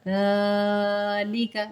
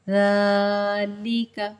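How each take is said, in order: No difference in how they are said.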